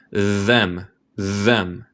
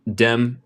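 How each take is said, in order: First: "Them" with a buzzing th, like a bee; neutral voiced th. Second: "dem" said with a hard D at the start. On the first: Teacher showing students the buzzing neutral "Them". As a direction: buzz the th in "Them". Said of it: "técnicamente en inglés neutral es como z". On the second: Teacher showing students the D-like "dem". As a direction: say "dem" like a D, the accent version. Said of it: "acentos ingleses que dicen como D". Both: Shown as a demonstration.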